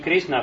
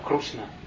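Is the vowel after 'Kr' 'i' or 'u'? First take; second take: i; u. First: The vowel after 'Kr' is an 'i' sound. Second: The vowel after 'Kr' is an 'u' sound. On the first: This is the common pronunciation. "И не Кришна" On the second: This is how it is said in Orissa. "а Крушна. Это особое произношение"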